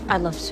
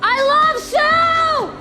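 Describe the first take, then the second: First: It is said quietly. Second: It is screamed loudly.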